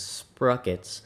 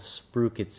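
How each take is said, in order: First: The first vowel sounds like the one in rock. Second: The first vowel sounds like the one in sprue. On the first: The speaker calls it wrong. "a lot of folks uh, pronouncing this as sprockets" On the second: The speaker calls it right. "I believe they're called sprookets"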